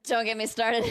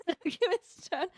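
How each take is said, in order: First: Said in the usual way. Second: Giggling through it; laughing. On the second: Real, not acted. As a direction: laugh the words out.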